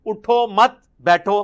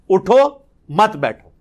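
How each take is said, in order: First: اٹھو مت بیٹھو run together as one phrase, no break after اٹھو; joined reading with مت leaning onto اٹھو. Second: اٹھو said alone with a rise, then a pause before مت بیٹھو; pause after uttho. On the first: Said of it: "اور اگر اکٹھا پڑھیں". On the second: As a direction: break between اٹھو and مت بیٹھو. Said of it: "اٹھو مت کو علیحدہ کر دیں". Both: Shown as a demonstration.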